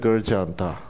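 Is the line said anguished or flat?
flat. It is read out plainly without feeling. It is a mere factual statement. The speaker calls it wrong. "성경을 이렇게 읽으면 안 돼"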